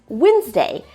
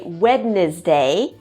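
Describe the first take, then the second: First: It is said shorter, not following its spelling. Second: It is said following its spelling, every letter sounded. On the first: The speaker calls it right. "but no, it's just Wednesday" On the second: The speaker calls it wrong. "I often hear students say Wednesday"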